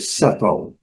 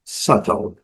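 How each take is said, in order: First: The middle T is a crisp T sound. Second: The same.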